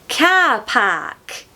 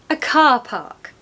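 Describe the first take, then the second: First: The a vowels are short, back in the throat. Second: The a vowels are long and open. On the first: "In Scouse" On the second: "In modern R P"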